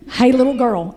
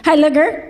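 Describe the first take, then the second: First: Put-on falling Appalachian hey little girl, savored; Kentucky twang echo. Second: Put-on rising Appalachian hey little girl; imitating country woman. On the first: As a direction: repeat it in her Kentucky twang. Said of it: "repeated for emphasis". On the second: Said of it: "And she goes".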